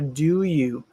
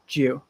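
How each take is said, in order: First: Both words are said fully and separately. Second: The two words blend into one short syllable.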